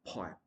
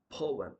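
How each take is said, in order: First: Poem as "POY-em"; mispronounced poem. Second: Poem as "POH-um"; correct pronunciation. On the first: Teacher showing the mistake, poem as "poy-em". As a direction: say poem as "pie-em", without "oh". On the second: Teacher contrasting with the mistake, Poem as "POH-um". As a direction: say Poem with a round "oh". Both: Shown as a demonstration. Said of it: "not poem".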